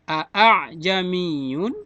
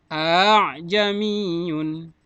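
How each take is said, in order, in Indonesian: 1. Hamzah kedua dibaca penuh. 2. Hamzah kedua diringankan dan terdengar dipanjangkan.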